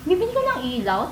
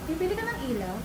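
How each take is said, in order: First: It sounds sarcastic and doubting. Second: It sounds playful and flirty.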